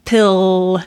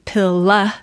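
First: The final L is held with no vowel after. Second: The final L is released into a short vowel. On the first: The speaker calls it right. "We hold that" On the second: The speaker calls it wrong. "We don't say pilla"

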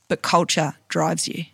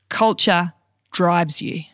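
First: It is said at normal speed. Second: It is said slowly.

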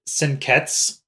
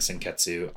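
First: The final u vowel is dropped. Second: The final u vowel is pronounced. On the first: "so they kind of drop the last U" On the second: "you're not going to be wrong by saying Senketsu either"

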